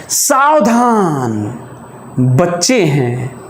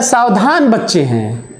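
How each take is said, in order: First: "सावधान" long drawn out, pause, then "बच्चे हैं" slow and lower; exclamation hold. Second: "सावधान बच्चे हैं" run together as one phrase; no pause. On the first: Teacher reading bus sign as punctuated, warning hold after "सावधान". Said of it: "सावधान के बाद exclamation". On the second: Teacher reading bus sign as written, "सावधान बच्चे हैं" unbroken. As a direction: read "सावधान बच्चे हैं" straight through without a hold. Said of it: "लिखा रहता है". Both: Shown as a demonstration.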